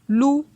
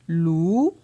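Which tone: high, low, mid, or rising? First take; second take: high; mid. First: The syllable is said on a high tone. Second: The syllable is said on a mid tone. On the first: "Ton haut" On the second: "Ton moyen"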